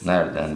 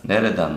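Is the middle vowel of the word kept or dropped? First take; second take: dropped; kept. First: The middle vowel of the word is dropped. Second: The middle vowel of the word is kept. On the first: The speaker calls it wrong. "yanlış" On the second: The speaker calls it right. "doğru"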